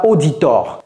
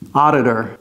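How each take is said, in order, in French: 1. Il se prononce à la française. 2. Il se prononce à l'anglaise. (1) "Ne dites pas auditor" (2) "c'est pas facile à prononcer"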